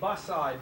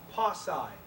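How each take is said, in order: First: The name begins with a B sound. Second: The name begins with a P sound. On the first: "B A S S A I" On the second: "It is also pronounced pasai, P A S S A I"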